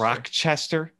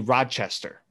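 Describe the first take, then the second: First: The first syllable sounds like 'rock'. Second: The first syllable sounds like 'rotch'. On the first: The speaker calls it wrong. "they see rock, and then I guess like they just add the Chester" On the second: The speaker calls it right. "You say Rochester"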